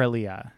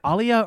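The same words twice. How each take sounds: First: "Alia" opening on a short IH; second pronunciation option. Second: "Alia" opening on a broad AH; first pronunciation option. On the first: Offering the other way to say the name, "Alia" as ih-LEE-uh. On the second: Asking which way the name is said, "Alia" as AH-lee-uh. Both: Shown as a demonstration. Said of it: "is it Alia or Alia".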